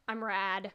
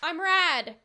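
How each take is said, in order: First: It is said softly. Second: It is said loudly.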